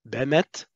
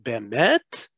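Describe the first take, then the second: First: The word is said short and quick. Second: The word is held long and drawn out. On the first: "You hear how short it is?" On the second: "many learners of Hebrew who are saying bemet"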